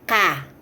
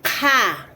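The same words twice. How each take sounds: First: The consonant is plain, with no extra air. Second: The consonant has a strong puff of air.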